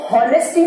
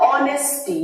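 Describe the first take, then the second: First: "हॉनेस्टी" with the H sounded; wrong H-sound pronunciation. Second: "ऑनेस्टी" starting straight on the vowel; silent-H pronunciation. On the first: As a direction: begin "हॉनेस्टी" on an audible H, the incorrect way. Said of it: "तो हॉनेस्टी नहीं". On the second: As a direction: model "ऑनेस्टी" carefully with no H. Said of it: "इसका pronunciation क्या है". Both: Shown as a demonstration.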